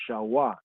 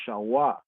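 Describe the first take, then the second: No difference in how they are said.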